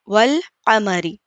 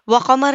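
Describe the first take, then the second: First: The L sound before qamar is clearly pronounced. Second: The L sound before qamar is left out. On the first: The speaker calls it right. "बल्कि वल कमरी" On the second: The speaker calls it wrong. "व कमर नहीं पढ़ेंगे"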